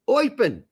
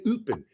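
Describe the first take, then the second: First: The name is said with native-style sounds. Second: The name is said with American-style sounds. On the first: The speaker calls it right. "It's Eupen" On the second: The speaker calls it wrong. "you can't say Eupen"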